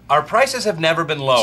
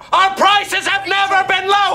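First: It is said at a normal volume. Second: It is shouted very loudly.

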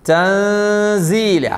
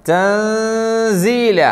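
No difference in how they are said.

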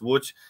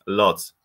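First: The name is said with Polish sounds. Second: The name is said with English sounds. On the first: "In Polish pronunciation" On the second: "In English pronunciation"

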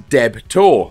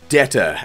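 First: The name is said in a plain, neutral way. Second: The name is said in a tough gangster accent.

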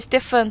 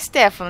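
First: The name is pronounced the Portuguese way. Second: The name is pronounced the English way. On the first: "Mas poderia ser Stefan também" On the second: "Pelo menos do inglês eu acho que é Stefan"

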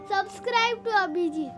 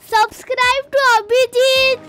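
First: It is said softly. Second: It is said loudly.

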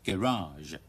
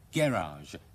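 First: The stress is on the second syllable. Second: The stress is on the first syllable. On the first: "將個重音擺喺第二個音節嗰度" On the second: "英國人嘅習慣咧就將個重音擺喺第一個音節嗰度"

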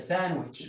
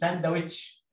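First: The d sound is silent. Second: The d sound is pronounced. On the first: The speaker calls it right. "اسمها كده ساندويتش" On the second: The speaker calls it wrong. "مش ساندويتش"

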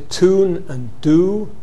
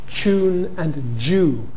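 First: There is no y sound after t and d. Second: The t and d merge with y into ch and j. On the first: "If you drop the yod in words like tune, do, and you say tune and do" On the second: "you may coalesce it to ch"

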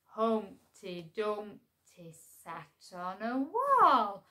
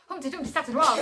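First: It is said very slowly. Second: It is said very fast.

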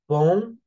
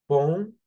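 No difference in how they are said.

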